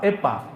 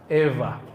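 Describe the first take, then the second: First: The middle consonant is a p sound. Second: The middle consonant is a v-like sound. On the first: The speaker calls it wrong. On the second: The speaker calls it right. "semi-semi V. Antara waw dan fa"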